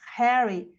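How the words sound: The word starts with a breathy H sound. "tem som de R"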